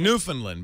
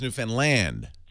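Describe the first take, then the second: First: The final syllable 'land' is not stressed. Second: The final syllable 'land' carries the stress. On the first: The speaker calls it wrong. "I would say" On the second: The speaker calls it right. "but it's Newfoundland. / You put the emphasis on the land"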